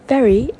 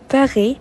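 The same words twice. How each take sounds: First: The r is a clear English r. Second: The r sounds almost like a soft k.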